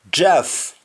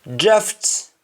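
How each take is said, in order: First: "draft" said as draf, the final t dropped; Jamaican, no final t. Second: Said in the usual way. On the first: Shown as a demonstration. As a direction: drop the t at the end of "draft". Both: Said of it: "You don't pronounce the T at the end".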